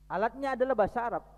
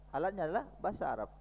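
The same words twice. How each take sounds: First: "adalah" pushed high and loud, fast; stress on adalah. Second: Said in the usual way. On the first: Shown as a demonstration. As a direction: hit "adalah" hard, higher and louder. (tekanan tinggi dan keras pada "adalah")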